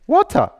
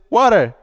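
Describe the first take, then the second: First: The middle consonant is a clear T sound. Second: The middle consonant sounds like a D. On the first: "It's a T" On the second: "they don't see a T, they see a D"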